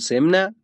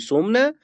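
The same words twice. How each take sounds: First: The first vowel is an i sound. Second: The first vowel is a u sound. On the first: "در واوی کسرش بدیم" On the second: "در واوی هم ضمه بدی"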